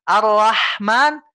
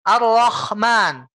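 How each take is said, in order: First: Ar-Rahman slow, light clean h from the throat. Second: Ar-Rahman slow, h scraped into a rough kho. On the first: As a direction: say Ar-Rahman with a thin h. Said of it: "harusnya kita bacanya Ar-Rahman". (Ar-Rahman pelan dengan ha yang bersih) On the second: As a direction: show the wrong heavy kho in Ar-Rahman. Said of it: "Itu bukan ha lagi, Pak, tapi jadi kho". (Ar-Rahman pelan dengan ha serak seperti kho) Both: Shown as a demonstration.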